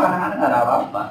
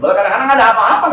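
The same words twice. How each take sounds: First: Said in the usual way. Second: Higher, louder, fast with laughter; laughing, fast. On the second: Real, not acted. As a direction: blurt it out laughing. (sambil tertawa, cepat dan lebih keras)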